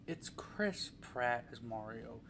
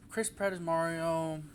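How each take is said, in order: First: Softer, slow, flat-out resigned statement; weary deadpan, softer and slower. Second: Said in the usual way. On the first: Real, not acted. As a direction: let it drop like there's nothing more to say. Repeats casting, deadpan resigned.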